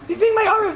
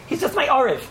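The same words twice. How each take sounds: First: Being punched much higher, falling after; stress on being. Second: Said in the usual way. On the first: Shown as a demonstration. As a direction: lift the word being way up for contrast.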